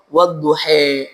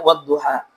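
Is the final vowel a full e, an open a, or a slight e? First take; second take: full e; open a. First: The final vowel is fully shifted to e. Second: The final vowel is a plain open a. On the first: This is a major-inclination reading of some reciters. "membacanya dengan imalah kubra" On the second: This is the majority reading. "semua ulama qiraat mayoritas membacanya wadduha"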